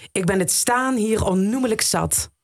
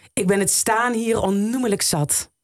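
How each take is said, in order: The two takes are said the same way.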